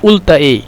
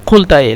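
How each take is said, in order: First: The first word starts with a glottal stop. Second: The first word starts with a deep q sound. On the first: This is how Egyptians actually say it. "لكن هم يتكلم قلت ايه" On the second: This is how it is supposed to be said. "مفروض قلت ايه"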